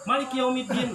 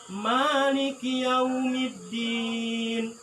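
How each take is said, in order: First: The long vowel is cut short. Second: The long vowel is held for two beats. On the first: The speaker calls it wrong. "Atau dikurangan gini" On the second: The speaker calls it right. "Yang yang benarnya ma ma dua ketukan"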